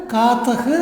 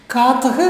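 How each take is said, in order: The two takes are said the same way.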